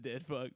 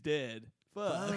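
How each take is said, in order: First: The two words run together without a pause. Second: A pause separates the two words. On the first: Someone is being called a dead jerk. "I meant not that he's a dead fuck" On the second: Someone died, followed by an exclamation of dismay. "but he's dead. Fuck. / There was a comma"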